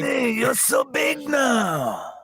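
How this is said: It is said in a put-on Watto voice.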